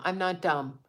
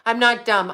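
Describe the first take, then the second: First: Said in the usual way. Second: Louder, "not" hit hard; insist: I'm NOT dumb; emphatic denial. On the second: Real, not acted. To people who think she's stupid, a loud insistent denial.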